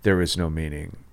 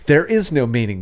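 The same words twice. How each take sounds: First: It is said in a bleak, hopeless tone. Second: It is said in a cheerful, upbeat tone. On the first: Nothing in life is worth doing. "Nothing is worth it" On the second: Life is free to be given its own meaning. "yay, there's balloons"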